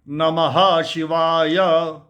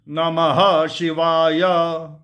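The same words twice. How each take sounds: First: The first word is said as three syllables, na-ma-ha. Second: The first word is said as three syllables, na-ma-ha.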